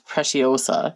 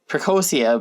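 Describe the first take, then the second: First: The middle sounds like 'ci-o' before the ending. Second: The middle sounds like 'co' before the ending. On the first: This is probably the correct name. The speaker calls it right. "but I guess it's" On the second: This is how the speaker always used to say it. The speaker calls it wrong. "I always called it uh"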